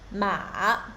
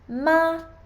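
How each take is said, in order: First: The pitch dips low, then rises again. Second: The pitch stays high and level throughout. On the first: "the third tone starts low and deep down, and then rise again" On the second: "First tone is a high and steady tone"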